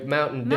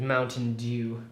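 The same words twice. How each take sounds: First: It is said in a rural American accent. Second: It is said in a non-American accent. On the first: The speaker calls it right. "in a hick kind of way" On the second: The speaker calls it wrong. "just doesn't sound right, does it?"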